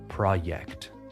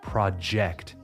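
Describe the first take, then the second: First: The J is softened like a Y. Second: The J is a full J sound. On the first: The speaker calls it wrong. "soften that sound and it becomes like a Y" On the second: The speaker calls it right. "project and not"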